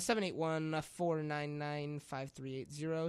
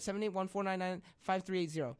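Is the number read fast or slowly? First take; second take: slowly; fast. First: The number is read slowly. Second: The number is read very fast.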